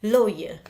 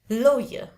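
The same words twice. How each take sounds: The two takes are said the same way.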